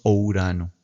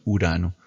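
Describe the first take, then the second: First: "o Urano" with a clear extra o sound before the U; Greek vowel start. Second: Said in the usual way. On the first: Shown as a demonstration. Teacher shows students the Greek way, sounding the o. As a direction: say "o Urano", giving the opening o its own beat. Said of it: "No decimos o Urano". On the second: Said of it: "Vean cómo lo decimos nosotros en español".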